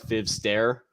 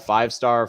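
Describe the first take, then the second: First: The name is said with distorted vowel sounds. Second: The name is said with its usual pronunciation.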